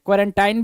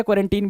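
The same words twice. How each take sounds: First: "क्वारंटाइन" with an eye sound in the last syllable; accepted pronunciation. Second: "क्वारंटीन" with a long ee in the last syllable; accepted pronunciation. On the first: Teacher says both are right, here "क्वारंटाइन" ending in -tine. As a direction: end "क्वारंटाइन" in -tine, like fine. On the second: Teacher says both are right, here "क्वारंटीन" ending in -teen. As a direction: end "क्वारंटीन" in -teen, like seen. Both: Shown as a demonstration. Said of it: "दोनों सही है".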